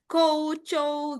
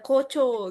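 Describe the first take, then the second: First: The first syllable has an added u sound. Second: The first syllable is a plain short o. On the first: The speaker calls it right. "tapi kita kayak kou ada U-nya" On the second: The speaker calls it wrong. "Kalau untuk orang awam mah dibaca aja Kocho gitu kan"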